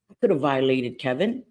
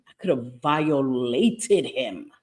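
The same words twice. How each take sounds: First: Said in the usual way. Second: "violated" stretched slowly, syllable by syllable; drawn-out emphasis. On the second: Real, not acted. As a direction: drag out "violated" for weight.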